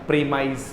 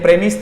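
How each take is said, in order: First: It ends with a long 'mize' sound. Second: It ends with a short 'miss' sound. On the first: It is used as a verb. "Verb होते ही इसका उच्चारण क्या हो जाएगा, प्रीमाइज हो जाएगा" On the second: It is used as a noun. "देखो ये प्रेमिस था"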